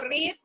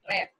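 First: The word does not sound like 'red'. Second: The word sounds like 'red'. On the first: The action is in the present. "En presente digo read, presente" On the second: The action is in the past. "Y en pasado, ¿cómo digo? Read. ... Como el color rojo"

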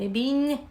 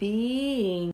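First: The syllables are not linked by a glide. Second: The syllables are linked by a stretched glide. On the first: The speaker calls it wrong. "Не being, не ще щось" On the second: The speaker calls it right. "ви маєте протягнути. Там має обов'язково з'явитися ї оця"

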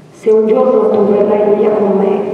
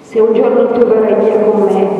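The two takes are said the same way.

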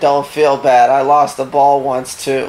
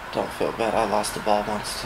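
First: It is said at a louder volume. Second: It is said at a quieter volume.

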